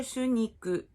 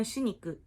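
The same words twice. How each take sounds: First: "shuniku" with a falling tune; careful "shuniku", falling away; presumed correct intonation. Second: "shuniku" said quickly as "shiniku"; quick "shuniku", sounding like shi-niku; mistaken intonation. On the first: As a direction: say "shuniku" with a clear u first, pitch dropping. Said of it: "imagino que seja shuniku". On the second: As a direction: squeeze the first vowel of "shuniku" towards i. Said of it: "eu acabei falando shuniku". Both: Shown as a demonstration.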